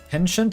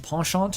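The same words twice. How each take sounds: First: It is said with a fully English pronunciation. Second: It is said halfway between English and French. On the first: The speaker calls it wrong. "seems too bastardized" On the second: The speaker calls it right. "Maybe that's kind of a happy medium"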